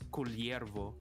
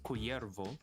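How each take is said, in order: First: The double L is said as L plus Y. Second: The double L is said as a plain Y. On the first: This is how the speaker's own community would say it. "but for us, we would say as Culiervo" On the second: This is how a Mexican or Spanish speaker would say it. "Mexican or Spanish would pronounce it as Cuyervo"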